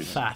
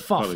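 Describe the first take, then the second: First: The vowel is flat, as in 'gaffe'. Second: The vowel is rounded, as in 'off'. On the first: The speaker calls it wrong. "not Faff" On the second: The speaker calls it right. "It's Foff"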